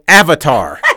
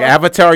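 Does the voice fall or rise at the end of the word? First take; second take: fall; rise. First: The word is said loudly, falling at the end. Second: The voice rises at the end like a question. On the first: It is just blurted out at someone. "Like you just yelled it at me" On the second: It asks a question. "like a question"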